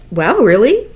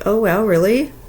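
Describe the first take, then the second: First: It sounds genuinely surprised and lively. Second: It sounds flat and unexcited.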